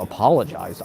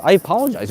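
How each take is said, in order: First: Said in the usual way. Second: "apologized" jumps up high and louder; emphatic insistence. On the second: Real, not acted. Comedian insisting he said sorry, "apologized" punched high. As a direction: stress "I apologized" with a higher, punched delivery.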